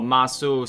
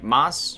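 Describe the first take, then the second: First: The final vowel is pronounced fully. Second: The final vowel is dropped.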